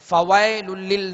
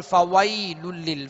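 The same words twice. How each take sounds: First: "फवैलुल लिल" said fawaelul lil, flat e; "फवैलुल लिल" with no y glide; wrong open vowel. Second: "फवैलुल लिल" said fawaylul lil, gentle y glide; "फवैलुल लिल" with a clear ay, no jerk; correct soft leen. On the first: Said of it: "नहीं पढ़ेंगे". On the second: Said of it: "मारूफ पढ़ेंगे". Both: Shown as a demonstration.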